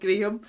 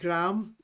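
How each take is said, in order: First: The name is said with a non-American pronunciation. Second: The name is said with an American pronunciation. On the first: This is how the speaker's own region says it. "and not Graham" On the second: This is how people in America say it. "you guys pronounce it Graham"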